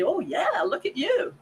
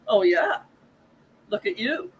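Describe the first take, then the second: First: The tone is warm and sincere. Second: The tone is mocking and sarcastic. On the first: The praise is genuine. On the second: The praise is not meant.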